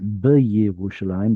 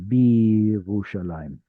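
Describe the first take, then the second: First: It begins with a short b then a 'ye' syllable. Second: It begins with a single 'bi' syllable. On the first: The speaker calls it wrong. "it's not B'Yerushalayim" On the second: The speaker calls it right. "but rather Birushalayim"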